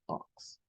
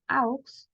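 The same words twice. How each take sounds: First: "aux" said as "oks"; "aux" with au as "o", slowly; correct pronunciation. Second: "aux" said as "auks"; "aux" with a full a-u glide; wrong spelling-based reading. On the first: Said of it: "yo voy a decir aux". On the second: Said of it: "En lugar de decir aux". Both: Shown as a demonstration.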